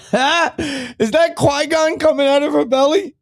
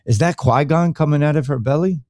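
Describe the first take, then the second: First: Very high, drawn-out put-on voice; silly high voice. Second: Said in the usual way. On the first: Host clowning about Qui-Gon in her belly, silly high voice. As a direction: squeal the question slowly, held up high.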